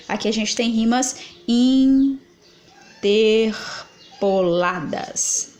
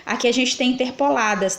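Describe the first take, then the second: First: Very slow, leaning hard on rimas; slow emphatic repeat. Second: Said in the usual way. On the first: Shown as a demonstration. Teacher repeating for students, slow and emphatic. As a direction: spell it out slowly so the class gets it. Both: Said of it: "tá vendo?".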